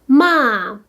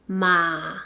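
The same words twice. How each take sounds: First: The pitch falls sharply from high to low. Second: The pitch dips low, then rises.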